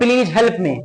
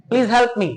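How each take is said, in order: First: The usual Indian way of saying it; Indian English. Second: Please help me in an American accent, help stressed; American English accent. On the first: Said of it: "और हम लोग". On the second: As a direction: mimic an American asking for help. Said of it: "ऐसे बोलते हैं". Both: Shown as a demonstration.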